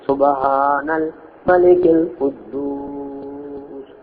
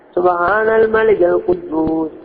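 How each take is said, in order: First: The last word is drawn out long. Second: The last word is said short.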